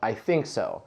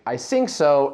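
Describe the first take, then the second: First: The first sound of think is th. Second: The first sound of think is f or s. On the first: The speaker calls it right. "instead of" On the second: The speaker calls it wrong. "substitute the f sound for s"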